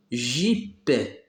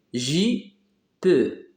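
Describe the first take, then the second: First: Said in the usual way. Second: "J P" as two separate beats, jee, pause, pe; split into syllables. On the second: Shown as a demonstration. Teacher showing jeep has two syllables, split apart. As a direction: sound out "J P" in two detached pieces. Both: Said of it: "Deux syllabes aussi".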